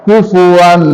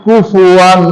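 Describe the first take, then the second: Both takes have the same delivery.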